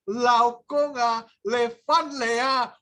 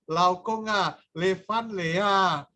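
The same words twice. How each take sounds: First: Slow, drawn-out greeting. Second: Smiling greeting. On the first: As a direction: stretch "Laokong ah, Levan Lea" slowly. Madam overhears, voice slow and changed. (sapaan "Laokong ah, Levan Lea" diucapkan lambat dan dibuat-buat) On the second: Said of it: "sampai senyum-senyum". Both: Retold or imitated.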